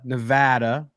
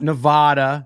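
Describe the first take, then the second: First: The middle vowel sounds like the vowel in 'dad'. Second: The middle vowel sounds like the vowel in 'father'. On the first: The speaker calls it right. "For those of you who are saying it wrong" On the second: The speaker calls it wrong. "Not Nevada"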